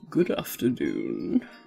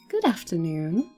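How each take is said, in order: First: It is said in a put-on cat voice. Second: It is said in the reader's normal voice.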